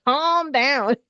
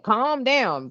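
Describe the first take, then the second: First: Escalating nag from a know-it-all friend; pushier "calm down". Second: "Calm down" lifted a little higher, a touch preachy; first light "Calm down" from a pushy friend; mock nagging "calm down". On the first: Retold or imitated. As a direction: insist again, more bossy. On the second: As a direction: nudge them lightly to "Calm down". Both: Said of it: "somebody telling you to calm down".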